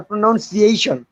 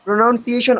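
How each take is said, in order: First: "pronunciation" as pro-NUN-ciation. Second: "pronunciation" as pro-NOUN-ciation. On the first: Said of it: "Which one is correct?". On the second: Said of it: "which one is correct?". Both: Shown as a demonstration.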